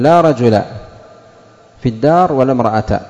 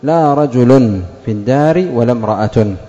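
First: The nouns end in a short vowel without nunation. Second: The nouns end in -un with nunation.

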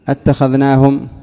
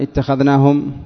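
First: The word begins with an open 'a' vowel. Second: The word begins with an 'i' vowel. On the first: It asks a question. "تريد الاستفهام" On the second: It states a fact. "خبر"

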